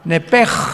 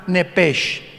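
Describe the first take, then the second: First: The word ends in a throaty, guttural rasp. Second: The word ends in a hissing 'sh' sound. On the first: "Que es gutural" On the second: "como suena nepesh"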